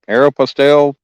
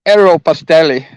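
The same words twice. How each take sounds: First: The name is said with a plain English accent. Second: The name is said with an Italian accent. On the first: "I just say it" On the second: "I can say it like Italian"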